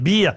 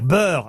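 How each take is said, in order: First: The vowel is a close 'ee' sound. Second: The vowel is an open 'eh' sound. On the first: The speaker calls it wrong. "moi je disais beer" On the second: The speaker calls it right. "on doit dire beurre"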